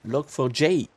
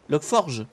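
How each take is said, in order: First: It is said in English as 'log for jay'. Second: It is run together as 'log forge'. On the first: The speaker calls it right. "À l'anglaise" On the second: The speaker calls it wrong. "Logforge? Bah non"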